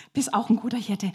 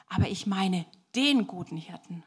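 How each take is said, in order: First: Said in the usual way. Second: Single out "den" as the one and only; stress on DEN. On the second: Acted. Wanderer correcting the proud shepherd boy, stressing "den".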